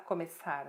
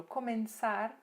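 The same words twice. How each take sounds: First: "começar" said the Portuguese way, ko-me-SAR; Portuguese pronunciation. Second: "começar" said the Spanish way, ko-men-SAR; Spanish pronunciation. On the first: Teacher gives students their own word, "começar" as Portuguese ko-me-SAR. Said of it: "pra nós é". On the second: Teacher contrasts Spanish with Portuguese, "começar" as Spanish ko-men-SAR. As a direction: say "começar" with an n before the stressed SAR. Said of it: "pra nós é começa". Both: Shown as a demonstration.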